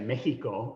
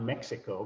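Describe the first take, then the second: First: The x is pronounced like an English h. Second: The x is pronounced like English ks. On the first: This is how Spanish speakers say it. The speaker calls it right. "the Spanish say Mexico" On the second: This is not how Spanish speakers say it. The speaker calls it wrong. "not Mexico"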